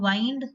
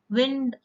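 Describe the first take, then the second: First: "wind" pronounced wynd; wind, long I. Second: "wind" rhyming with grinned; wind, short I. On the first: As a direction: wind as in winding a clock. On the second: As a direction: wind as in a breeze. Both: Shown as a demonstration. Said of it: "Pronunciation might be slightly different".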